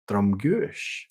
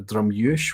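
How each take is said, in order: First: The G sound is clearly pronounced. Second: The G sound is left out entirely.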